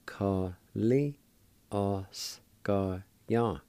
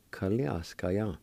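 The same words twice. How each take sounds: First: Ka-li-oscar-yan very slowly, syllables held apart; syllable-by-syllable pronunciation. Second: Said in the usual way. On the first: Shown as a demonstration. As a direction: sound out Ka-li-oscar-yan with gaps between syllables. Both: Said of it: "And together".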